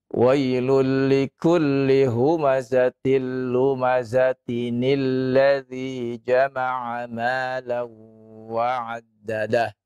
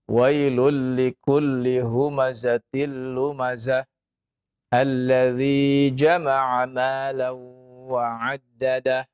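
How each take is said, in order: First: Lumazah flows into the next word with added nin. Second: The verse ends at lumazah, with no added n. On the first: "Kalau di wasal disambung, ya, nun wiqayah tadi itu berfungsi" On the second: "Kalau tidak, maka tidak perlu kita baca"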